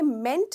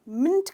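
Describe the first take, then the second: First: The vowel sounds like 'e' in 'men'. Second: The vowel sounds like 'i' in 'mint'. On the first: The speaker calls it wrong. "ये मेंट नहीं है" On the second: The speaker calls it right. "मिंट कहा जाता है"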